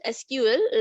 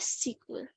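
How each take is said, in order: First: It is spelled out as three separate letters. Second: It is said as one word, sequel. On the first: This is how students in college say it. "like you will call with individual letters" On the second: This is how people say it at work. "S E Q U E L"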